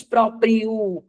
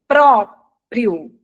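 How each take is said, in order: First: "próprio" wrongly stressed on the drawn-out last syllable; stress on final O. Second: "próprio" with a loud, punched first syllable PRÓ; stress on PRÓ. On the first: Teacher showing the student how not to say it, end-stressed. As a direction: say "próprio" as propri-Ô, leaning on the end. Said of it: "Você não diz". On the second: Teacher giving Pedro the correct pronunciation, stress on PRÓ. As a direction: hit PRÓ hard in "próprio", then drop off. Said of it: "A pronúncia é". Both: Shown as a demonstration.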